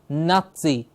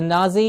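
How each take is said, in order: First: The middle consonant is a ts sound. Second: The middle consonant is a plain z sound. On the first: The speaker calls it right. "It's a T in the middle, like pizza" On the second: The speaker calls it wrong. "Not just a Nazi"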